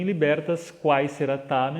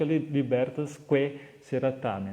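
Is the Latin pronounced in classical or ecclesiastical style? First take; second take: classical; ecclesiastical. First: It uses reconstructed classical Latin pronunciation. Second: It uses ecclesiastical church Latin pronunciation. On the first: "na pronúncia reconstruída, né, acadêmica do latim" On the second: "na pronúncia mais eclesiástica"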